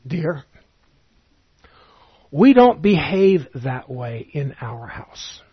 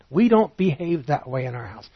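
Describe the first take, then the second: First: Mother's gentle reproof. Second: Said in the usual way. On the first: Retold or imitated. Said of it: "my mother would sometimes say to me".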